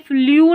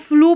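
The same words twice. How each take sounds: First: The vowel is a 'yoo' sound. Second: The vowel is a plain 'oo' sound. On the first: The speaker calls it wrong. "फ्लू नहीं पढ़ेंगे" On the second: The speaker calls it right. "अब इसको फ्लू पढ़ेंगे"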